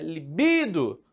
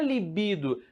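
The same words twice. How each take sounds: First: The stress is on the second syllable, bi. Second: The stress is on the first syllable, li. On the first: The speaker calls it right. "no bi" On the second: The speaker calls it wrong. "mas não é libido"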